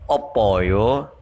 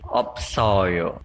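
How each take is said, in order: First: The word is said without an S after P. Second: The word is said with an S after P. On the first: The speaker calls it wrong. "bukan opoyo" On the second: The speaker calls it right. "tapi opsoyo"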